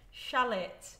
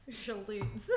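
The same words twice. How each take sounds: First: Shallot said as SHAL-it, short a; trying again. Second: Shallots said through giggles; laughing through it. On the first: Shown as a demonstration. Vlogger retrying the word after laughing. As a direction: try shallot with a flat a. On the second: Real, not acted. Vlogger laughing at her own pronunciation attempt. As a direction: try the word while cracking up. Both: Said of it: "I can't".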